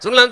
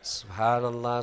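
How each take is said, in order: First: It is said fast and rushed. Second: It is said slowly and clearly.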